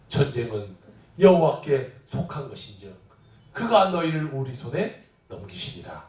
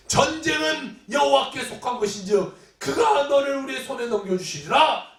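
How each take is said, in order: First: Low, measured recitation; solemn scripture reading. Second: Triumphant declaration. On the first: Preacher quoting David from Samuel, low solemn reading. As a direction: read the verse in a low register. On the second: David answering Goliath in faith, shouted proclamation. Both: Acted.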